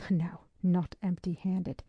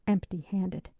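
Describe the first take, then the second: First: Slow correction, NOT stressed then falling. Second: Said in the usual way. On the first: A narrator's reading. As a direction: lean on "not" in "No, not empty-handed".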